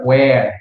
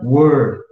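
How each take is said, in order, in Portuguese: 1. A vogal soa como a de 'hair'. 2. A vogal soa como a de 'her'. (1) "ele não se pronuncia where" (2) "esse cara aqui se pronuncia were"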